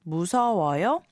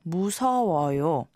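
First: The voice rises at the end like a question. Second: The voice falls at the end like a statement. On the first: The speaker is politely asking if someone is scared. "change the intonation and say ... 무서워요? You'd be asking, are you scared?" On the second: The speaker is politely saying they are scared. "or 무서워요 to be polite"

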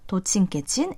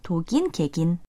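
First: The second syllables sound like 'jjin'. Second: The second syllables sound like 'gin'. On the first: This is the colloquial, slangy form. The speaker calls it wrong. "это просторечие" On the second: This is the standard, correct form. The speaker calls it right. "Правильнее будет говорить"

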